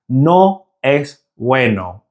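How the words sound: It is said with a Spanish accent.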